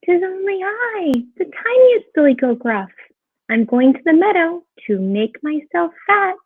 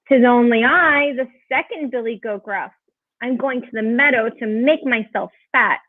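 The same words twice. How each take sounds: First: High little billy goat voice; very small voice. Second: Lightly voiced middle goat, close to narrator's own; a hint of a bigger billy goat; not-so-small voice. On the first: Littlest goat answering the troll, in a very small voice. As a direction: pipe up as the tiniest goat. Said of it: "said in a very small voice". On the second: Second goat answering the troll, in a not-so-small voice. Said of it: "his voice was not so small". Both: A narrator's reading.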